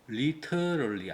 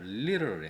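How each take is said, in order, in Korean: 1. t는 또렷하고 선명한 t로 발음해요. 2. t는 빠른 플랩으로 부드럽게 약화돼요. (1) "T 발음을 안 하고 리터럴리 안 합니다" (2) "리터럴리 합니다"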